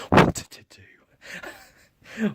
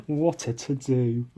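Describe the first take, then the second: First: High, very slow, breathy mock dismay; mock fuss. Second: Said in the usual way. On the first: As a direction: ham up a fussy old lady gasp. Mock-posh exclamation.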